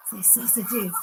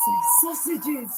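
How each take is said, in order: First: Said in the usual way. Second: Slow, drawn-out "Say sausages"; coaxing sing-song. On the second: Shown as a demonstration. Tempting the dog spirit with treats, slow coaxing sing-song. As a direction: stretch "Say sausages" out slowly to tempt her.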